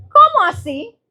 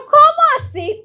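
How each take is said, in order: First: High, loud rising "¿Cómo así?"; a puzzled, pitched-up question; disbelief. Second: High, loud astonished "¿Cómo así?"; astonished question. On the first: Repite la reacción asombrada. ("¿Cómo así?" agudo, subiendo, incrédula) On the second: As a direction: pitch way up in disbelief. Reacción asombrada en la historia. ("¿Cómo así?" agudo y fuerte, con asombro) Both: Retold or imitated.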